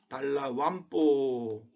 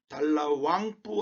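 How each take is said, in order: First: An m sound comes before the final pu. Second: An ng sound comes before the final pu. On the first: The speaker calls it right. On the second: The speaker calls it wrong.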